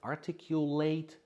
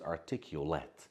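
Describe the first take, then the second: First: It is pronounced the way the verb is. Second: It is pronounced the way the adjective is. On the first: To say words clearly. "as I pronounce, is the verb" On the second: Well spoken. "But this one is the adjective"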